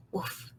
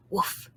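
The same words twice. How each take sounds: First: A tiny, near-silent woof; hushed dog woof, almost nothing; very soft woof. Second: A quiet little dog woof; a gentle, hushed woof; barely voiced puppy woof; soft woof. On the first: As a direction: breathe the woof out, much softer. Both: A narrator's reading. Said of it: "real soft".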